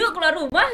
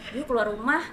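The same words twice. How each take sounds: First: It is said with high energy and pitch. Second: It is said flatly with low energy. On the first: The speaker calls it right. "kayak semangat deh" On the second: The speaker calls it wrong. "jangan, ... Itu tuh kayak kurang"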